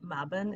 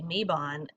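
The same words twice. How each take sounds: First: The word is said not rhyming with 'Avon'. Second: The word is said to rhyme with 'Avon'. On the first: This is the way an elder taught. The speaker calls it right. "a way to remember to say Mabon instead" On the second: This is the common way people say it. The speaker calls it wrong. "a lot of people say Mabon"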